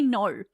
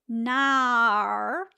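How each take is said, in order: First: The vowel is a rounded 'oh' glide. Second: The vowel is an open 'ar' sound. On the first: This is how Australians actually speak. The speaker calls it right. "We say no, and it's an it's like an O W H sound" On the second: This is the stereotype of how Australians speak. The speaker calls it wrong. "I do not say nar like like Americans seem to think that we say"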